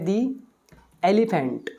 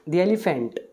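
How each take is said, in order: First: 'The' is said with a long 'ee' sound. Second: 'The' is said with a short 'uh' sound.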